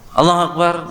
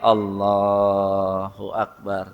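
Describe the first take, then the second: First: The phrase is said quickly and hurriedly. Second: The phrase is said slowly and deliberately. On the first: It is rushed without the heart following. The speaker calls it wrong. "nggak ada yang bisa buru-buru" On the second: The heart follows what is said. The speaker calls it right. "Takbir pun ya pelan-pelan biar hatinya ikut"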